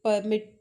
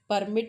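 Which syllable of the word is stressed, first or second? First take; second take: second; first. First: The stress is on the second syllable. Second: The stress is on the first syllable. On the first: It is an action, to allow. "My focus is on mit" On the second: It names a document. "When you give stress on p, beginning wala p"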